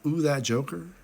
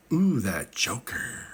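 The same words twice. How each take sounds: First: Lightly voiced Joker. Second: Slow drawn-out Joker purr; imitating a creepy Joker voice; creepy Joker smile. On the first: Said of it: "Doesn't that look like that?". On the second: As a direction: stretch it out like a creepy grin. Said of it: "screams like".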